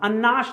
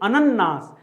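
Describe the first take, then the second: First: It is said with two syllables, an-naas. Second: It is said with three syllables, a-nan-naas. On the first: The speaker calls it wrong. "अन्नास नहीं" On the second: The speaker calls it right. "एक ना पूरा रहेगा और ... एक ना आधा रहेगा"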